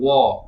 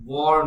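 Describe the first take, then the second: First: The word ends without an r sound. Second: The word ends with an r sound. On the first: The speaker calls it right. "উচ্চারণটা হবে ওয়া" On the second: The speaker calls it wrong. "ওয়ার নয়"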